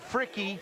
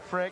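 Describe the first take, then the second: First: The name has two syllables, ending in a vowel. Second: The name has one syllable, ending in a consonant. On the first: The speaker calls it right. "pronounced it Fricky" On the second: The speaker calls it wrong. "not Frick"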